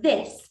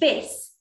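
First: The first sound is the standard th sound. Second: The first sound is replaced by another sound. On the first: This is the intended pronunciation. The speaker calls it right. "instead of this" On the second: This is how a young child says it. The speaker calls it wrong. "they'll say this instead of this"

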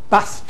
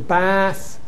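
First: The vowel is short. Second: The vowel is lengthened. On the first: This is the older pronunciation. "you get lengthening only" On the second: This is the later pronunciation. "turns to bath"

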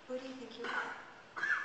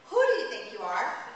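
First: It sounds open and genuinely curious. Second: It sounds judgmental and accusing.

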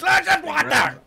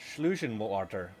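First: It is shouted loudly in an angry voice. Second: It is said at a normal, calm volume.

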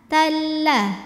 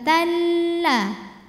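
First: The L is released quickly without nasal hum. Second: The L is held with a nasal hum. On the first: The speaker calls it right. "Jangan ditahan, gak ada dengungnya" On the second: The speaker calls it wrong. "bukan talla"

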